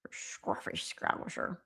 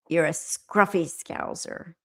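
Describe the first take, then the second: First: Low, slow, slurred mock Scouse; hushed, drawn-out attempt at Scouse. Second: Said in the usual way. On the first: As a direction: mumble it softly in a put-on Scouse accent. Playful attempt at a Scouse phrase.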